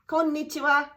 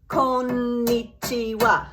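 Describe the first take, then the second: First: The syllables flow together at a natural speed. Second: Each syllable is said as a separate, even beat. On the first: This is how it sounds in normal conversation. "it sounds like this when you're in a normal conversation" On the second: It is a way to practice while learning. "she would tap it, tap it"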